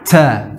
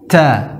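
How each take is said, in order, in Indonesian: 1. Huruf t dilepas dengan hembusan napas yang kuat. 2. Huruf t dilepas dengan hembusan napas yang kuat.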